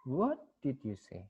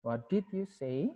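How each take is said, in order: First: WHAT stands out, then the voice falls; stress on WHAT. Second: DID stands out, pitch rising to the end; stress on DID. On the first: Asking for a repeat after not understanding, stress on WHAT. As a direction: lean on "What" and let the rest drop. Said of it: "ini di what-nya". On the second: Asking for information after Fred disliked the remark, stress on DID. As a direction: put the weight on "did" as a rising question. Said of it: "baik di did". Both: Shown as a demonstration.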